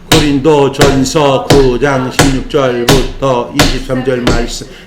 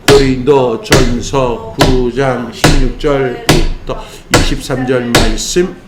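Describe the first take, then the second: First: It is said at a faster pace. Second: It is said at a normal pace.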